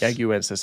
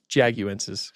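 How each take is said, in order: First: The word begins without a J sound. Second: The word begins with a J sound. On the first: "I think the J's silent" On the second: "If it's if it's not, it's Jaguensis"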